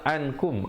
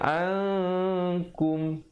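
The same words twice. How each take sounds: First: The n is pronounced clearly and briefly. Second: The n is hidden and nasalized for two counts. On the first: "Asalnya ankum" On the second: "tapi di sini kena baca ankum"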